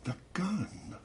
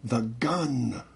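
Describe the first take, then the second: First: High, soft startled echo; hushed realization. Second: Drawn-out, slightly raised eerie command; the mother's voice heard in her head. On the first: She turns round as it dawns on her, hushed alarm. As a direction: softly, pitch leaping up on the realization. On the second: Mother speaks to her as she nears the door, urgent warning. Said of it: "Mother said". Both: A narrator's reading.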